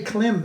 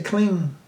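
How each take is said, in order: First: "Klim" ending on a lip M; unused mantra pronunciation. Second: "Kling" ending in ng, not M; Bengali mantra pronunciation. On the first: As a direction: close "Klim" with a clear M. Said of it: "They don't say Klim". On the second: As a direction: end "Kling" on a ringing ng. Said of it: "they say Kling". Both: Shown as a demonstration.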